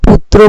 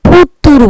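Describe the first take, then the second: First: The word keeps its consonant cluster intact. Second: The cluster is broken up with an added vowel. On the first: This is the original Sanskrit form. "কেউ পুত্র বলে" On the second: This is a form altered by local pronunciation. "কেউ পুত্তুর বলে"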